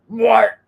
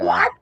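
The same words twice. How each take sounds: First: The pitch falls on the word. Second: The pitch rises on the word. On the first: It comes off as rude or dismissive. The speaker calls it wrong. "that was the wrong tone" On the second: A harmless, genuine question. The speaker calls it right. "if I went up in inflection, I don't think it would have been a thing"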